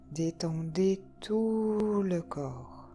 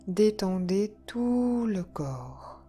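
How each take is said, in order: Both takes have the same delivery.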